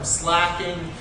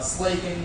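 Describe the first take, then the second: First: The vowel is short, as in 'back'. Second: The vowel is long, as in 'make'. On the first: The speaker calls it wrong. "some people use the term slacking" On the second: The speaker calls it right. "slaking, much like slaking your thirst"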